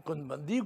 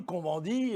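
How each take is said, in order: First: Said in the usual way. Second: "Cohn-Bendit" said the French way, with nasal vowels; French pronunciation. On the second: Shown as a demonstration. Speaker insisting that in France one says it French, "Cohn-Bendit" with French nasal vowels. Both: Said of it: "on le prononce à la française".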